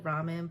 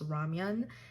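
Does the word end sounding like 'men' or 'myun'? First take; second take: men; myun. First: The second syllable sounds like 'men'. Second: The second syllable sounds like 'myun'. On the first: The speaker calls it wrong. "I call also call it ramen" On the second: The speaker calls it right. "in the correct pronunciation"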